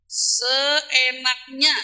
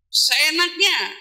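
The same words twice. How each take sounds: First: Seenaknya stretched very slowly, rising at the end; drawn-out emphasis. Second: Seenaknya stretched slowly and falling firmly; drawn-out emphasis. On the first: Preacher scolding women, seenaknya drawn out slowly. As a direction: drag out every syllable of seenaknya like a question. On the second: Preacher rebuking careless anger, seenaknya slow and final. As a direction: lean on seenaknya slowly and let it drop. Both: Acted.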